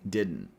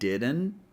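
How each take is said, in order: First: The word is said in a clipped, shorter form. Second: The word is said in a fuller, longer form. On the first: "we have a shorter version" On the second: "We have a longer version"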